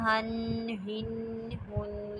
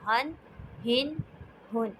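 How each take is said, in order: First: The n is held with a nasal hum. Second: The n is said clearly without nasal hum. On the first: The speaker calls it wrong. "आपने ऐसे नहीं पढ़ना" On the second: The speaker calls it right. "बल्कि आपने पढ़ना है"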